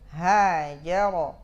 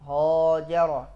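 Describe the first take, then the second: First: The h is light, with a bright vowel. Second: The h is heavy, with a dark vowel. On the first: The speaker calls it right. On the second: The speaker calls it wrong.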